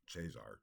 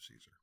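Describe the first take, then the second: First: The word begins with a ch sound. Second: The word begins with an s sound. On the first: This is the church Latin pronunciation. "would be the uh, ecclesiastical Latin pronunciation" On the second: This is the English pronunciation. "and then in English becomes Caesar"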